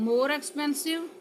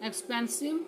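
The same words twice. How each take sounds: First: "more expensive" lifted higher with a rising tune; teacher marks "more expensive" with a raised pitch; comparative stressed. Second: Said in the usual way. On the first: Shown as a demonstration.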